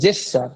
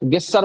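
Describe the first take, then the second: First: The word begins with a soft J sound. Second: The word begins with a hard G sound. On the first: The speaker calls it right. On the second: The speaker calls it wrong. "গেস্টার বলবে না"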